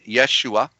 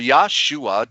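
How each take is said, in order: First: The first syllable sounds like 'yesh'. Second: The first syllable sounds like 'yah'. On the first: The speaker calls it wrong. "Yesh, as like yes, but with an H in it" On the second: The speaker calls it right. "The E is a corruption. It's an A"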